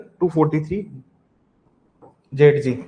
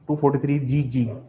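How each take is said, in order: First: The letter Z is pronounced 'zed'. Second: The letter Z is pronounced 'zee'. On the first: "जेड जी" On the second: "बहुत से लोग जी भी बोलते हैं इसको"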